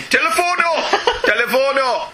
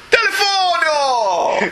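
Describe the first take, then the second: First: Higher, laughing Italian cop barking the word; mock Italian police shout of Telefono; shouting Telefono in a hammed-up Italian accent; Italian policeman accent. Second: Slow, stretched Italian "Telefono!" shouted high; hammed-up Italian accent. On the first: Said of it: "There's another accent to my repertoire. Italian". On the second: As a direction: hold out every syllable of Telefono like a cartoon Italian cop.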